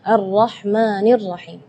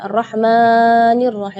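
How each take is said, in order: First: The long vowel is held for two beats. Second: The long vowel is stretched beyond two beats. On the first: The speaker calls it right. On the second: The speaker calls it wrong.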